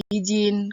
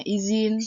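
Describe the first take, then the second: First: Izin said as "ijin"; non-standard form. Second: Izin with a buzzed Z; standard form. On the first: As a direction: turn the Z of Izin into J. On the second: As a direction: say izin as "i-zin". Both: Shown as a demonstration. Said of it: "kata bakunya izin".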